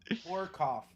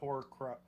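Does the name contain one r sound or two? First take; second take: one; two. First: The name has only one r sound. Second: The name has an extra second r sound. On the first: The speaker calls it right. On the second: The speaker calls it wrong. "not Horcruff. ... We're adding the second R"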